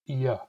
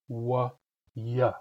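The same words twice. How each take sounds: First: A brief glottal catch comes before the sound. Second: The sound starts smoothly with no catch. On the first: "The glottalized resonants" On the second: "the plain resonants"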